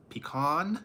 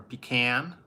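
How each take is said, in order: First: Pecan as PEE-kahn, long ee and open ah; Pecan spoken pee-KAHN style, ending in an open ah; pecan one way. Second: Pecan as pee-KAN, with a flat a like in can; pecan said pee-can, flat a, rising question; pecan the other way. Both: Shown as a demonstration. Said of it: "do you say pecan or pecan?".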